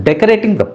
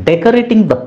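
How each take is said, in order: Both takes have the same delivery.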